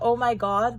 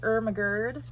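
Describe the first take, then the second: First: The phrase is said with its normal vowels. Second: The phrase is said with distorted, slurred vowels. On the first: "instead of oh my god" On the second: "the cats would say Ermagerd"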